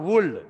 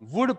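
First: The word is said with an L sound. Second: The word is said without an L sound. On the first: The speaker calls it wrong. "Not वुल्ड" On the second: The speaker calls it right. "एल जो है वो silent रहेगा"

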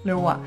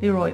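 First: The name is pronounced in a French way. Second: The name is pronounced in an English way. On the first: "the French way" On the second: "the English way"

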